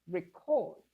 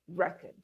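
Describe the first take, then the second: First: The stress is on the second syllable. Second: The stress is on the first syllable. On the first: It is used as a verb. "as a verb, ... the stress shifts to the second syllable" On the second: It is used as a noun. "that's a noun. ... The stress is on the first syllable"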